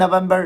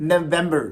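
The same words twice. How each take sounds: First: November as na-VAM-bar; wrong pronunciation. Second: November as nuh-VEM-ber; right pronunciation. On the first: Teacher repeating what is wrong, November as na-VAM-bar. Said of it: "it is not November". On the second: Teacher answering the mistake, November as nuh-VEM-ber. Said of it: "it is". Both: Shown as a demonstration.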